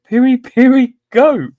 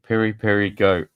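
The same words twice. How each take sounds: First: Much higher and louder, bursting into laughter; can't believe what chat wrote; a real laugh breaking through; incredulous laugh. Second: Said in the usual way. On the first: Real, not acted. Rereads the answer, cracking up.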